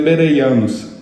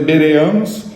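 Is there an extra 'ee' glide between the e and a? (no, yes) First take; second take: yes; no. First: An 'ee' glide sits between the e and a. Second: The e and a sounds follow with no glide. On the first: "aquele i no meio do e e do a torna mais fácil a pronúncia" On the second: "Algumas versões vão trazer bereanos"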